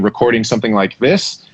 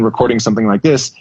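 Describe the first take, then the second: First: The voice is farther away, quieter, with less bass. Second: The voice is close up, louder, with more bass.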